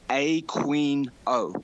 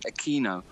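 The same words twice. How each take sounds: First: The name gets an anglicized, non-Spanish pronunciation. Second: The name gets a South American pronunciation. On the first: "He pronounces his own name Aquino" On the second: "the South American pronunciation ... which is how it should be pronounced"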